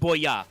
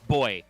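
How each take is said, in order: First: It is said with a Japanese-style pronunciation. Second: It is said with an English pronunciation. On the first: "not boya" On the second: "like properly pronouncing it like he's English"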